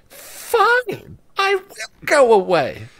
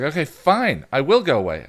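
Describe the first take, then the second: First: High, squeaky cartoon-friend voice, huffy; a wounded imaginary friend giving in; imaginary friend sulkily agreeing to leave; Bing Bong voice. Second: Said in the usual way. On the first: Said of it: "as Bing Bong".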